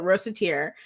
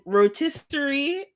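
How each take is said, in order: First: "rosateer", ending in a -teer sound; "rosateer" in three syllables for rotisserie; mispronounced rotisserie. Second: Rotisserie said slowly in full; standard pronunciation. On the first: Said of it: "I always wanna call it". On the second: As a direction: say "rotisserie" carefully, every syllable. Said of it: "words I just never get right". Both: Shown as a demonstration.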